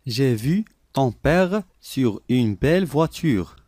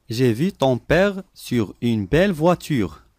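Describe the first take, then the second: No difference in how they are said.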